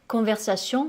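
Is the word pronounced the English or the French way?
French. The ending sounds like French 'sion', not 'shun'.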